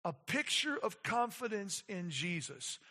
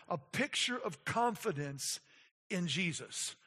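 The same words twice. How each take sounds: The two takes are said the same way.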